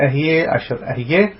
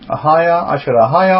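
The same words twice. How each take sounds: First: Ehieh, Asher Ehieh with "eh" vowels; variant pronunciation Ehieh. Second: Ahiah, Asher Ahiah with open "ah" vowels; Hebrew pronunciation Ahiah. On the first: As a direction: say Ehieh as "eh-hee-YEH" each time. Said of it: "different people pronounce it with different". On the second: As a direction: say Ahiah as "ah-HAH-yah" each time. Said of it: "depends how the Hebrew is pronounced". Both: Shown as a demonstration.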